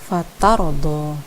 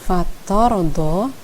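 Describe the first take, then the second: First: The 't' is thin, sounding like 'ta'. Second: The 't' is thick, sounding like 'to'. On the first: The speaker calls it right. "harusnya dibaca fatardo" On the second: The speaker calls it wrong. "ta terbawa tebal menjadi to"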